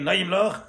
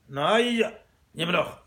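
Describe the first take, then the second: First: The two words run together without a pause. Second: There is a pause between the two words.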